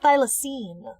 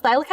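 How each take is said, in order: First: "thylacine" ending in -seen; expected pronunciation. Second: "thylacine" ending in -kine; questioned pronunciation. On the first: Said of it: "I thought it was pronounced thylacine". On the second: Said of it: "is it really pronounced thylacine?". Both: Shown as a demonstration.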